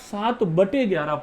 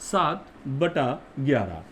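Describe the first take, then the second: First: The middle word ends in an 'e' vowel. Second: The middle word ends in an 'a' vowel. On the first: The speaker calls it wrong. "बटे कोई शब्द नहीं होता है" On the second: The speaker calls it right. "पढ़ने का शुद्ध तरीका, सही तरीका"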